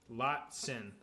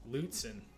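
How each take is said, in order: First: The first vowel sounds like an o. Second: The first vowel sounds more like a u. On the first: The speaker calls it wrong. "I guess I'm pronouncing it wrong" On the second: The speaker calls it right. "Use the U more. Okay, that's how Lutzen"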